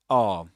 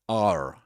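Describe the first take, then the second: First: It is said with a British accent, no r. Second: It is said with an American accent, with r. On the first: The speaker calls it right. "This in British English in isolation is are" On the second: The speaker calls it wrong. "You don't say are as in American English"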